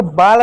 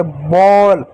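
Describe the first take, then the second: First: Said in the usual way. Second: "बॉल" with a round open aw like English ball; correct English o sound. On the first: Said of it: "तो इसको बाल नहीं पढ़ते". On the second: Shown as a demonstration. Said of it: "ओ की मात्रा पढ़ते हैं". (सही उच्चारण "बॉल", गोल होंठ)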